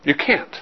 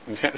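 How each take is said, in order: First: Said in the usual way. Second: "You can't." much softer, almost under the breath; quiet echo. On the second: Shown as a demonstration. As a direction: let "You can't." fade away softly.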